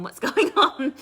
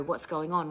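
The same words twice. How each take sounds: First: Breaks into a high laugh mid-question; laughing through it. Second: Said in the usual way. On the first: Retold or imitated. Mocking her own pestering of her sister, laughing. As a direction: laugh at your own nagging. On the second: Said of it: "it was not helping for me to go".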